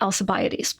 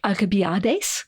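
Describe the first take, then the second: First: The c is sounded as a soft s. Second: The c is sounded as a hard k. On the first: This is the usual English form. "in English, we pronounce it as a soft C" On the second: This is closer to the original Greek. "in Greek, you might have pronounced it something more like Alcibiades"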